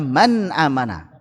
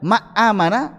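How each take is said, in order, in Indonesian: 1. Huruf n diucapkan dengan jelas dan terpisah. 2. Huruf n dihilangkan sama sekali. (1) "Itu yang paling tepat, paling ringan" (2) "Kalau dibaca ma amana enggak enak"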